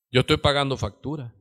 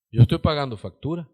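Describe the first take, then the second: First: Said in the usual way. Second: "Yo estoy pagando factura" said again, quicker, with a punch on "yo"; emphatic repeat. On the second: Shown as a demonstration. Preacher repeats it for the church, quicker and stressed on "yo". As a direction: drive it home to the congregation, hitting "yo". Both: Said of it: "¿Sí se oye?".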